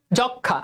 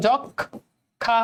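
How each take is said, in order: First: Said in the usual way. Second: যক্ষা very slow, the ক্ষ held as double খ; slow model of যক্ষা; drawn out. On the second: Shown as a demonstration. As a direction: draw out যক্ষা syllable by syllable. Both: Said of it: "খেয়াল করে দেখো".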